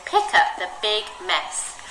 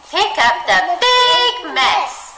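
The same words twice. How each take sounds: First: Said in the usual way. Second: "big" stretched high and loud; big stressed. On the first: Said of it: "It says". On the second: Shown as a demonstration. Teacher reading, "big" stretched high and loud. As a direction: make "big" sound enormous, high and slow. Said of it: "say big in the same way".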